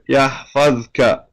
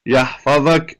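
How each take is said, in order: First: No vowel comes between the z and k. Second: A vowel is inserted before the final k. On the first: The speaker continues without stopping. "if they continue, right, then they will say it as is written here" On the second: The speaker stops on the word. "they'll put a a, ver, a vowel yahfadak"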